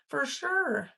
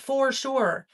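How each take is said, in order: First: The first word is said as 'fur'. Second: The first word is said as a careful 'for'. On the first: It sounds like eighties slang. The speaker calls it right. "you had to say fur, like F E R" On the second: It sounds overly enunciated. The speaker calls it wrong. "Not for sure"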